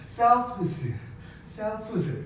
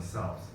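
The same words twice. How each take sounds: First: 셀프즈 said with a voiced buzzing z at the end, pitched higher; hard z ending. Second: 셀프스 said softly with a light unvoiced s, much softer and lower; smooth s ending. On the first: Teacher shows students the awkward, effortful 셀프즈. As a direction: force out a clumsy voiced z in 셀프즈. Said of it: "셀프즈 이렇게 발음해야 돼". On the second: Teacher shows students the smooth, easy 셀프스. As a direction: ease out 셀프스 gently with a soft s. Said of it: "셀프즈가 아니라 셀프스 이렇게 되는 거야". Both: Shown as a demonstration.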